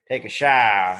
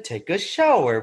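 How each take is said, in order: First: It is said in a super exaggerated put-on voice. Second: It is said close to the original, without exaggeration. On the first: This is an overdone impression that does not match the original. The speaker calls it wrong. "but I would say" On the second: This is how the original actually sounded. The speaker calls it right. "It actually sounded like"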